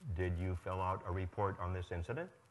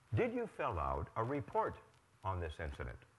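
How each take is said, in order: First: The voice rises at the end. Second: The voice falls at the end.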